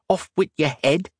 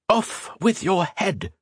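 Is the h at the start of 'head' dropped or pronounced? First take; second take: dropped; pronounced. First: The h at the start of head is dropped. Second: The h at the start of head is pronounced. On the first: The speaker calls it wrong. "An H should never, ever be dropped" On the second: The speaker calls it right. "That's the proper pronunciation"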